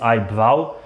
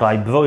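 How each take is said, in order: First: The second syllable rhymes with 'cow'. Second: The second syllable rhymes with 'go'. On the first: The speaker calls it right. "it is आई ब्राउ" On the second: The speaker calls it wrong. "It's not आई ब्रो"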